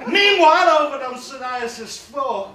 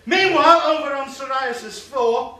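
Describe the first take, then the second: First: Loud, high, slow scene change; announcer. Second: Loud, high, slow scene change; announcer again. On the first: Comic switching scenes in his story, in a big trailer-announcer voice. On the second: Comic restarting the scene change, in a big trailer-announcer voice. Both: Acted. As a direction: boom it like a film trailer.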